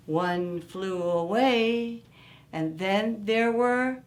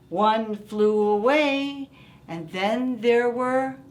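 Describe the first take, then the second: No difference in how they are said.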